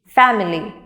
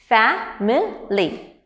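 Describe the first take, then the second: First: Said in the usual way. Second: Very slow "family" as fa, mi, ly; broken into syllables. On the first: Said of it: "these words can be broken". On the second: Shown as a demonstration. Teacher breaking words into three parts, "family" slow and split. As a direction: sound out each beat of "family" with gaps. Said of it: "three parts".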